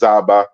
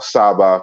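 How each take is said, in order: First: The word begins with a buzzing z sound. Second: The word begins with a hissing s sound. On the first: "Z and S interchange in Chiluba" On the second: "Z and S interchange in Chiluba"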